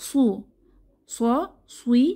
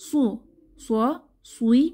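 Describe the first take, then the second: Both takes have the same delivery.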